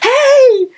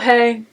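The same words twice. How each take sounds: First: It is said brightly with high energy. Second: It is said flatly with low energy.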